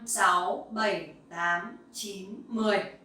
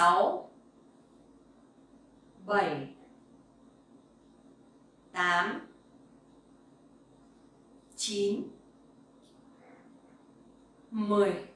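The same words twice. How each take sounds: First: The numbers are counted at a very fast pace. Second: The numbers are counted at a slow pace.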